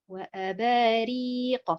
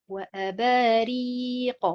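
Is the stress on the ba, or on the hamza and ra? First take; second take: ba; ba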